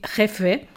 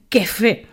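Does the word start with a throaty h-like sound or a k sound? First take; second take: throaty h; k sound. First: It starts with a rough, throaty h-like sound. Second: It starts with a hard k sound. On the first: This is the intended Spanish word. "quan volien dir jefe" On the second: The speaker cannot produce the Spanish sound. "dient quefe, perquè no sabien pronunciar la jota"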